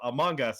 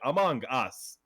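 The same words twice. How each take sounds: First: Only one word carries the main stress. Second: Both words are stressed at their start. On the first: "instead of Among Us" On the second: "You like emph- emphasize the start of both words"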